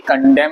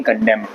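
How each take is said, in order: First: कंडेम with the n sounded; mock wrong कंडेम, n said aloud; wrong pronunciation. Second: कंडेम said kondem, n left silent. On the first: (कंडेम को गलत, एन बोलकर) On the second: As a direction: say कंडेम ending on m. (कंडेम, एन silent रखकर) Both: Shown as a demonstration. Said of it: "बोलेंगे कंडेम".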